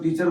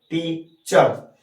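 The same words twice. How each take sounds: First: Said in the usual way. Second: टीचर slowly split as टी, pause, चर; two syllables. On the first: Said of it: "जैसे हम लोग टीचर बोलते हैं". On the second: Shown as a demonstration. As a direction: break टीचर into two separate beats, टी and चर. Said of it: "दो syllable में बोलते हैं". (टीचर को दो हिस्सों में, टी — चर)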